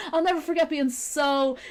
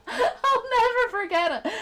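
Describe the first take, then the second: First: Said in the usual way. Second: Said through real laughter, pitched up; giggling through the line; laughing. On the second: Real, not acted. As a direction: laugh out the words. Laughing while remembering.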